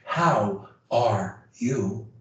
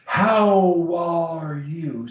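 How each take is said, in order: First: The words are broken apart with small gaps. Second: The words flow together on one steady tone. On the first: The speaker calls it wrong. "You don't say" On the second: The speaker calls it right. "we hold the tone constant to the end"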